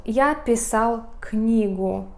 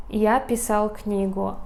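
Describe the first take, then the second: First: Slow, careful teacher read of Я писал книгу; slow model sentence. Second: Said in the usual way. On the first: Shown as a demonstration. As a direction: say Я писал книгу slowly, word by word, for learners. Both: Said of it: "we have here example".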